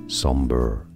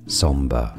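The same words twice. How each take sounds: First: It is said with an American pronunciation. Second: It is said with a British pronunciation. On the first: "In American English, however, it's usually pronounced more as somber" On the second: "In British English, it's pronounced as somber. Stress on the first syllable"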